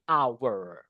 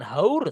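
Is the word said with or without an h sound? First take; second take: without h; with h. First: It starts with a vowel, no h sound. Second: It starts with a pronounced h sound. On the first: The speaker calls it right. "tapi hour" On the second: The speaker calls it wrong. "bukan haur"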